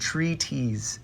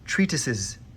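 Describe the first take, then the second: First: The ending is clipped to sound like '-ties'. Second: The ending is fully articulated as '-tises'. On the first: The speaker calls it wrong. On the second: The speaker calls it right.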